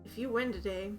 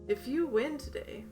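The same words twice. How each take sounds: First: It is read in the reader's ordinary voice. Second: It is read in a put-on character voice. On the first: The speaker calls it wrong. "oh sorry" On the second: The speaker calls it right. "let me read it in his voice"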